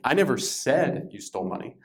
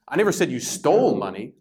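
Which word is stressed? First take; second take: said; stole. First: The stress is on the word said. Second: The stress is on the word stole.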